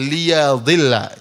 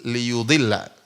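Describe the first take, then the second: First: The vowel after the y is a. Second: The vowel after the y is u. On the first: He ends up going astray himself. "Dalam qiraah yang lain fathah" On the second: He intends to lead others astray. "Ya-nya dhamma"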